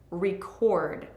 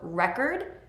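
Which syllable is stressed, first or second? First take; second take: second; first. First: The stress is on the second syllable. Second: The stress is on the first syllable. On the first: It is a verb. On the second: It is a noun.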